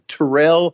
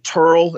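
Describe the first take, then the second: First: The name is said with two syllables. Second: The name is said as one syllable. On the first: This is how visitors guessed the name. "we thought it was Terrell" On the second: This is how locals say the name. "they pronounced it Turl"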